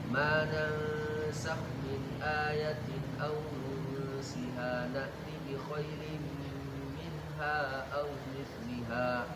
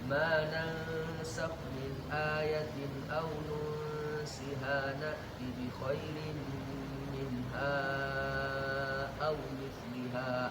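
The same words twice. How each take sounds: First: The stretched vowel is held for two counts. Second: The stretched vowel is held for four counts. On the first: "Wajah yang pertama" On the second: "Empat harokat"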